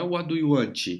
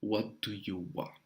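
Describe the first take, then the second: First: Want ending in a ch sound; wrong want. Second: Want with a plain T, slow and soft; right want. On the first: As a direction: want said as wanch. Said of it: "Não é want". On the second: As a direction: want ending on a short T. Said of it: "é What". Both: Shown as a demonstration.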